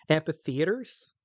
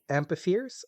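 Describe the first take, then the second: First: The word ends with a 'theaters' sound. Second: The word ends in a short 'theres' sound. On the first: The speaker calls it wrong. "I keep just mispronouncing it slightly on purpose sometimes" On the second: The speaker calls it right. "there's these creatures called like amphitheres"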